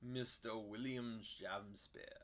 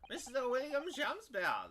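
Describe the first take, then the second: First: It is spoken in Van Zieks's voice. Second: It is spoken in the judge's voice.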